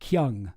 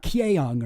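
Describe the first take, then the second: First: The vowel is a single short 'uh' sound. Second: The vowel is split into 'eh' then 'oh'. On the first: The speaker calls it right. "you pronounce it like uh" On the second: The speaker calls it wrong. "not Kyeong or whatever"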